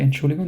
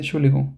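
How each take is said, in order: First: "Entschuldigung" said complete with its opening syllable; full Entschuldigung. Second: "Entschuldigung" as "schuligung", front dropped; clipped Entschuldigung. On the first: Teacher showing the full form people skip, said complete. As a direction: pronounce every syllable of "Entschuldigung". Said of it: "So they don't say". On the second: Teacher showing the casual form Germans use, clipped. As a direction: swallow the start of "Entschuldigung". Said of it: "they say". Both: Shown as a demonstration.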